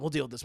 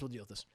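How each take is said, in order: First: Said in the usual way. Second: Much lower and much softer; menacing murmur. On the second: Retold or imitated. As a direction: plot it under your breath. Esther plotting.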